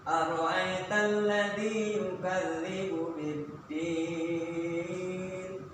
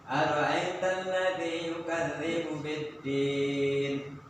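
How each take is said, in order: First: The final vowel is held for four counts. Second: The final vowel is held for two counts. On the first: "Kalau empat" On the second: "dibaca dua ... Dua"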